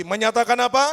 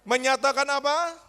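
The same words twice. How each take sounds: First: Much louder, pushing the question out; louder call. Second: Calling out. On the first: Shown as a demonstration. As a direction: shout it back at them, louder. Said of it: "Lebih keras lagi". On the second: Real, not acted. Preacher calls congregation to answer.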